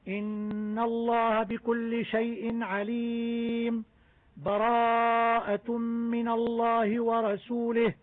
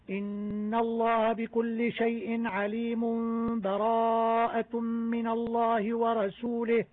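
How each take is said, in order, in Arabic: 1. وقفة تامة مع نفس تفصل بين الآيتين. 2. تتصل الآيتان دون سكتة. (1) "وقطع الجميع" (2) "وصل الجميع هكذا"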